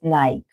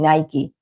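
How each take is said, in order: First: It is pronounced in a local Argentine way. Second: It is pronounced in the standard, original way. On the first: This is how people commonly say it locally. The speaker calls it wrong. "here in Argentina we call it Nike" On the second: This is the proper pronunciation of the brand. The speaker calls it right. "It's actually Nike"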